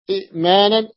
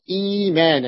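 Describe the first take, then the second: First: إئمانا with a glottal catch after short i; original two-hamza form. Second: إيمانا with long ii, no catch; second hamza softened. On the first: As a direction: stop after the i, then maanan in إئمانا. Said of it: "الهمزة الثانية". (إئمانا بتحقيق الهمزة الساكنة) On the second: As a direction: glide from long ii into maanan in إيمانا. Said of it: "تبدل من جنس حركة الهمزة الأولى". (إيمانا بإبدال الهمزة ياء) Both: Shown as a demonstration.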